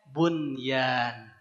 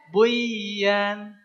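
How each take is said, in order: First: The n sound is pronounced clearly before y. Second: The n sound merges into the following y. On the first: The speaker calls it right. "Ini dibacanya bunyan" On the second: The speaker calls it wrong. "Secara hukum bacanya buyan, tapi tidak"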